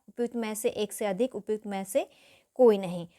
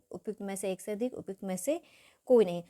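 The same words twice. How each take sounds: Both takes have the same delivery.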